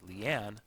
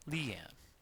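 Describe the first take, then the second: First: The stress is on the second syllable. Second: The stress is on the first syllable. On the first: The speaker calls it right. "includes the emphasis on the second syllable" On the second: The speaker calls it wrong. "not Leanne"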